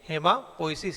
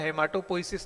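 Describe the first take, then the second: First: The word is said without a 't' sound. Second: The word is said with a 't' sound. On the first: This is how the word is read aloud. "यहाँ टी silent रहेगा" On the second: This is how the word is spelled. "हेमाटोपोइसिस लिखा हुआ है"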